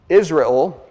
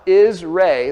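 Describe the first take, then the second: First: The final syllable is weak and reduced. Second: The final syllable 'el' is stressed. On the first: The speaker calls it wrong. "it's not pronounced Israel" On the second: The speaker calls it right. "that's a long A, and then L with a short E. ... It puts emphasis on the last two letters of the word, El"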